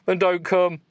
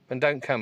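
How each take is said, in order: First: It is read in a put-on accent. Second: It is read in the reader's plain voice.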